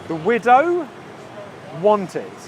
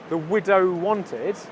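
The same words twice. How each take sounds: First: The W sound is said twice, words kept apart. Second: The W sound is said once, words joined.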